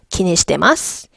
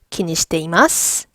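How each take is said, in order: First: The 'i' after 'shite' is dropped. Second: The 'i' after 'shite' is pronounced. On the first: This is how it is said in real conversation. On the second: This is the form that follows the grammar.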